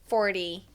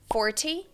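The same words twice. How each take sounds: First: The middle T is softened or altered. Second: The middle T is a strong, clear T.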